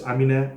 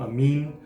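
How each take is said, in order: First: The name ends with a sounded final vowel. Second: The name ends without a final vowel sound. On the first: The speaker calls it right. "I don't think that last E is silent" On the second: The speaker calls it wrong. "Some people call him Amin"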